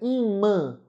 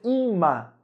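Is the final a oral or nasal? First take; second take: nasal; oral. First: The final a is nasalized. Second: The final a is oral, not nasal. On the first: The speaker calls it right. "o A nasalizado" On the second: The speaker calls it wrong. "Eu não vou dizer ima"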